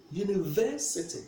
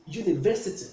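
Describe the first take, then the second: First: University with weight on "ver"; stress on third syllable. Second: Said in the usual way. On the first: Shown as a demonstration. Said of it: "We place the stress on the third syllable". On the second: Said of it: "where do we place the stress?".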